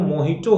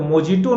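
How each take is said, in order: First: The middle consonant is an H sound. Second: The middle consonant is a J sound. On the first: The speaker calls it right. "वो मोहिटो होता है" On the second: The speaker calls it wrong. "तो मोजिटो नहीं होता"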